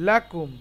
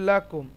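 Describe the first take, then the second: Both takes have the same delivery.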